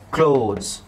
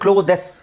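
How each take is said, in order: First: It is one syllable with no vowel before s. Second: It has an extra vowel sounded before s. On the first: The speaker calls it right. "ಈನ pronounce ಮಾಡೋಕ್ಕಿಲ್ಲ" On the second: The speaker calls it wrong. "ಈನ pronounce ಮಾಡಿದ್ರೆ"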